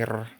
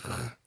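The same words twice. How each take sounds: First: The r is rolled with the tongue tip. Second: The r is made in the throat. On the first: The speaker calls it right. "it's supposed to be r" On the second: The speaker calls it wrong. "it's not supposed to be r"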